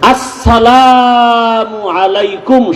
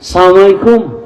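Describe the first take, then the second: First: The greeting is said in full, every syllable. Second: The greeting is clipped and run together. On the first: The speaker calls it right. "শুধু এই দুইটা শব্দ এটা পারে না" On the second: The speaker calls it wrong. "সালাম দেয়"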